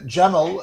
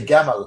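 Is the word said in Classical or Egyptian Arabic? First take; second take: Classical; Egyptian. First: It is said in Classical Arabic, with a j sound. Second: It is said in Egyptian Arabic, with a g sound.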